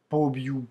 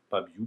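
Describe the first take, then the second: First: The first vowel is a full 'o' sound. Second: The first vowel is reduced to an 'a' sound. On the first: The speaker calls it wrong. "on ne dit pas pobiu" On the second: The speaker calls it right. "le O perd de sa valeur et devient A"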